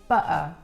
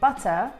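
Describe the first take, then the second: First: The T is replaced by a glottal stop. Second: The T is clearly pronounced. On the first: "you don't hear the T" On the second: "instead of saying"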